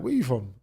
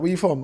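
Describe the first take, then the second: First: "you" jumps up, then falls, turning the question round; stress on YOU. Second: Said in the usual way. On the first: Retold or imitated. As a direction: throw it back with "you" stressed. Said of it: "I'm doing reverse psychology". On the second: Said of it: "So he's like".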